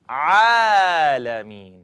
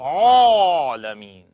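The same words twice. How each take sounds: First: The opening sound is lifted from the throat. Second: The opening sound is rounded like an 'o'. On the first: The speaker calls it right. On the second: The speaker calls it wrong.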